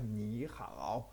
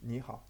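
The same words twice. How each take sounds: First: The tones are said in a strongly exaggerated way. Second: The tones are said naturally, without exaggeration. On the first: "alors au début j'exagère" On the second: "plutôt naturellement, plutôt proche de leur façon de le dire"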